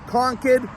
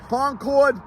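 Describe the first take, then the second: First: The second syllable is a reduced 'kid'. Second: The second syllable is a full 'cord'. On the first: It is the local way to say the town's name. The speaker calls it right. "Concord is the correct pronunciation" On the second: It sounds like the name of the supersonic plane. The speaker calls it wrong. "Concord, no more. Everybody that sees this thinks they can fly a plane out of this place"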